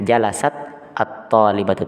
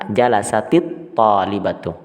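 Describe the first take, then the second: First: The final t carries no vowel before the noun. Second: The final t carries an i vowel, linking on. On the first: The speaker calls it wrong. "kita tidak kemudian membacanya jalasat atau talibatu, tidak" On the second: The speaker calls it right. "dengan mengucapkan kasrah di huruf ta-nya"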